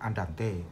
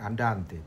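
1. Tekanannya ada pada suku kata lain. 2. Tekanannya ada pada suku kata kedua. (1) "bukan andante" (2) "diucapkan andante"

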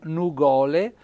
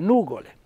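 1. L'accento non è sulla prima sillaba. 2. L'accento è sulla prima sillaba. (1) "non nugole" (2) "Floriani vuole mettere sempre l'accento sopra la U"

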